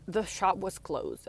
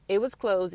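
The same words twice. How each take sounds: First: Said in the usual way. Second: "was" pushed louder, falling firmly; stress on was. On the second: Real, not acted. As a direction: lean on "was" in "It was closed.".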